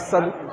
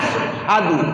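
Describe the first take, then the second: First: It starts with a plain 's' sound, no 'h'. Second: It starts with 'sh' followed by an 'h' sound. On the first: The speaker calls it wrong. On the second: The speaker calls it right.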